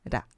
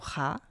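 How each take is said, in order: First: The R sound is soft and light. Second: The R sound is strong and hard. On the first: The speaker calls it right. "esse Rzinho mais brando" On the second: The speaker calls it wrong. "Não é o Ra"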